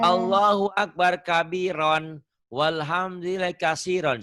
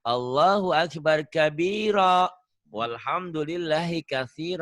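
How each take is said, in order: First: The key words end with an n sound. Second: The key words end with an open vowel. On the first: The reading continues past these words. The speaker calls it wrong. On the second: The reading stops at these words. The speaker calls it right. "Kalau dihentikan"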